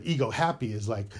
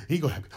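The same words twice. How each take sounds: First: Said in the usual way. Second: "ego" punched first, then "happy" falling; stress on ego. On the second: Shown as a demonstration. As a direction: put the weight on "ego" in "ego happy". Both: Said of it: "But ego happy is like".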